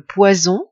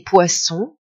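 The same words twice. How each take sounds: First: POISON with a voiced z between the vowels; Z sound. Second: POISSON with a voiceless s between the vowels; S sound. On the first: Teacher comparing two words, POISON with a voiced z. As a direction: say POISON with a buzzing z. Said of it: "le son Z dans le premier cas". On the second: Teacher comparing two words, POISSON with a voiceless s. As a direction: say POISSON with an unvoiced s. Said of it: "le son se dans le deuxième cas". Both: Shown as a demonstration.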